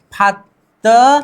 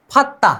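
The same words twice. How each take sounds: First: Fatta stretched out slowly with a rising end; slow demo. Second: Said in the usual way. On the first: Shown as a demonstration. Teacher slowly modelling the merged sound for students. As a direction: draw out Fatta slowly, as if asking. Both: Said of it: "द और द फिर से मिल गए".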